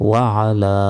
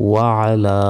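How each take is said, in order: No difference in how they are said.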